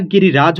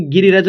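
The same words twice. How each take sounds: First: गिरिराज with a long raa at the end; correct reading. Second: गिरिराज with short a, like गिरिरज; wrong reading. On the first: Teacher corrects the guess, गिरिराज with long रा. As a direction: say गिरिराज holding the रा. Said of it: "गिरिराज होता है". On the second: Teacher shows the mistaken guess, गिरिराज said as गिरिरज. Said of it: "गिरिराज नहीं होता". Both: Shown as a demonstration.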